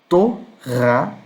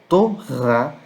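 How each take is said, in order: No difference in how they are said.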